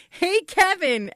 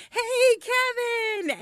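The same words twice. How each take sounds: First: High, drawn-out mock call; retold yell. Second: High, drawn-out call to a neighbor; yelled greeting. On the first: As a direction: call out a greeting, imitating the husband. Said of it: "Scott yells out". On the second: Retold or imitated. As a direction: sing out a long hello from a car. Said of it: "so we yelled to him".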